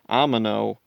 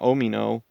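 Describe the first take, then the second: First: The name begins with an 'ah' vowel. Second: The name begins with an 'oh' vowel. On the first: This is how the show pronounces it. The speaker calls it right. "just the way they pronounce it is Amino" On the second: This follows the spelling but not the show. The speaker calls it wrong. "not Omino"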